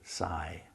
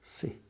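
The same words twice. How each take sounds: First: The vowel is a long I sound. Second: The vowel is a short I sound. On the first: The speaker calls it wrong. "You don't say si" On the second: The speaker calls it right. "the Y is short. ... you say si"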